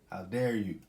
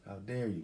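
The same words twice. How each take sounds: First: Loud, indignant how dare you. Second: Said in the usual way. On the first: Real, not acted. Vlogger scolding hijackers, loud indignant demand. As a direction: throw the outrage at them.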